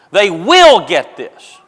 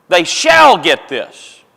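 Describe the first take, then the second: First: Slow, with "will" leaned on; stress on will. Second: Slow, weighty "shall" hammered down; stress on shall. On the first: Preacher to congregation, slow with "will" leaned on hard. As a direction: press "will" as a sure promise. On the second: Preacher to congregation, slow with "shall" pressed hard. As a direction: drive home "shall" as a certainty. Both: Shown as a demonstration. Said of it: "He's putting exclamation points".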